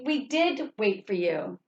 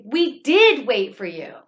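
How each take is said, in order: First: Said in the usual way. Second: Louder, falling "did" with energy; excited exclamation. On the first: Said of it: "exclamation mark". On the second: Shown as a demonstration. Teacher showing the excited version of the sentence. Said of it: "you can be excited about it".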